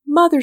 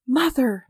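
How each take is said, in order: First: High and loud joyful cry; louder second call bursting with joy. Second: A first joyful call, higher; calling out her mother's name in happy surprise; joyful cry. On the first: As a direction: cry out to her mother in sudden joy. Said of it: "she cried out". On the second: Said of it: "silvery tones of a voice vibrating with joy". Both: A narrator's reading.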